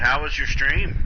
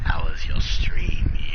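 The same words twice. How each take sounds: First: It is said in the speaker's ordinary voice. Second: It is said in a put-on character voice.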